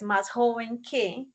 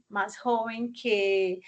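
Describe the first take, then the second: First: Said in the usual way. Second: "más joven que" said slowly, each word spaced; slow teacher model of "más joven que"; slow, deliberate repeat. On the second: Shown as a demonstration. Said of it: "entonces más joven que".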